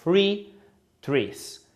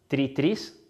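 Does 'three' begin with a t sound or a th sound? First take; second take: th sound; t sound. First: Three starts with a th sound. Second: Three starts with a plain t sound.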